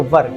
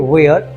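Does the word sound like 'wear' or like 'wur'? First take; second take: wur; wear. First: The vowel is short and central, like 'fur'. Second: The vowel is long, ending in an 'r' glide. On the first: The speaker calls it right. "बोलते वर" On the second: The speaker calls it wrong. "Many people से वेयर, so not वेयर"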